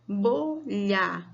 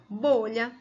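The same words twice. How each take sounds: First: "bo-lha" in two drawn-out beats; syllable by syllable. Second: Said in the usual way. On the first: Shown as a demonstration. Teacher starting syllable practice, syllable by syllable. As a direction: separate both syllables of "bolha". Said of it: "vamos separar as sílabas". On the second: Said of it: "Eu tenho a primeira palavra".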